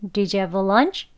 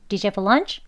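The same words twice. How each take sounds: First: The sentence is said slowly. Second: The sentence is said quickly. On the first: "조금만 천천히 한번 해볼게요" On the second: "너무 빠른가요?"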